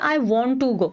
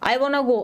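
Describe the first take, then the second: First: Each word is said fully and separately. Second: The words are reduced and run together quickly. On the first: "हम one one word को separately बोलते हैं" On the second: "बहुत extreme fast fast होती है क्योंकि वो शब्द को पूरा पूरा बोलते ही नहीं है"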